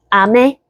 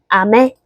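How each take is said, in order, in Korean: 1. 음높이가 낮은 데서 높은 데로 올라가요. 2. 음높이가 낮은 데서 높은 데로 올라가요.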